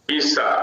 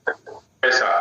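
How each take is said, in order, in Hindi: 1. पहला स्वर 'ee' जैसा सुनाई देता है। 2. पहला स्वर एक सपाट 'ae' ध्वनि है। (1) "हरियाणा वाले क्या बोलेंगे पीसा" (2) "इधर बोला जाता है पैसा"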